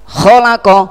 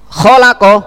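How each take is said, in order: The two takes are said the same way.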